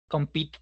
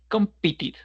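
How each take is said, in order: First: The ending is only a t sound. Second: The ending adds an extra syllable. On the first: The speaker calls it wrong. "compete sería el pasado, pero es muy difícil de entenderlo" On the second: The speaker calls it right. "Compete, competed"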